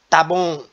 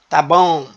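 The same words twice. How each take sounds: First: The first word is shortened to one syllable. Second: The first word is shortened to one syllable.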